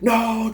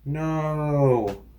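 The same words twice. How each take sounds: First: The no is cried out in anguish. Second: The no is said mildly and casually. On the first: Someone loved is about to die. The speaker calls it right. "that kind of no that was like, no, Dad, you're gonna die" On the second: Something trivial went wrong. The speaker calls it wrong. "it was more like, oh no, I dropped my sandwich"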